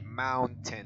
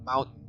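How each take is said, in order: First: The T in the middle is clearly pronounced. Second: The T in the middle is dropped. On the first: "in British accent you say mountain" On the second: "in American accent you say mountain. Like you don't pronounce the T"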